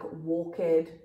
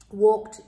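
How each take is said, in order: First: The ending is an extra syllable, walk-ed. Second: The ending is a plain t, one syllable. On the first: The speaker calls it wrong. "really important that you do not pronounce this like walked or talked. ... giving the word another syllable" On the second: The speaker calls it right. "It's almost like we take away the E and we add a T"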